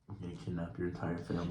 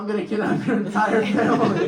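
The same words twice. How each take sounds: First: It is said in a flat, serious tone. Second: It is said in a light, joking tone. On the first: The threat is meant for real. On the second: The threat is not meant seriously.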